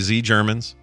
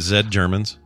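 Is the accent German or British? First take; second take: German; British. First: It is said in a mock German accent. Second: It is said in a mock British accent.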